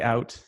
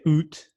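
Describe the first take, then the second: First: The vowel glides like 'ow' in 'cow'. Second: The vowel sounds like 'oo' in 'boot'. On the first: This is how the speaker normally says it. The speaker calls it right. "I very much say out" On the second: This sounds like a Norwegian accent. The speaker calls it wrong. "I don't say oot because that's like a Norwegian accent"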